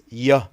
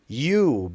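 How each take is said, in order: First: The word is said in a reduced form. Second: The word is said in its full form.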